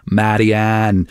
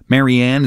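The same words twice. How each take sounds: First: Put-on Dublin accent on the name, drawn out; badly imitated Dublin accent; terrible Dublin accent. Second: Said in the usual way. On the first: Shown as a demonstration. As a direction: say the name in a bad Irish accent. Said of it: "in the Dublin accent it's Marianne". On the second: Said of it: "although I suppose in the Dublin accent".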